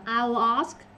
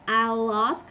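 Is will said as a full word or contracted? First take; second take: contracted; contracted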